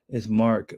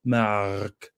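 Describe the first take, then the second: First: Said in the usual way. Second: Low, drawn-out French-accented "Mark". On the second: Shown as a demonstration. Practising a French accent on Mark's name, French accent. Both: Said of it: "trying to get my French accent back".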